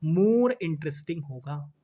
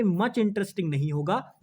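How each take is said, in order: First: More drawn out and stressed. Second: Said in the usual way. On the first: Shown as a demonstration. Teacher giving the corrected form, stressing more. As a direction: lean slowly on the word more.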